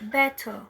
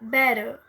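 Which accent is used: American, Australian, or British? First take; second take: British; Australian. First: A crisp t, and the ending sounds like a. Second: The word is clipped and shortened. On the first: "Já no inglês britânico, é, o T tem um som de T mesmo. E o R, o E R, tem um som de A" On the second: "Já no inglês australiano, é, por ter essa abreviação"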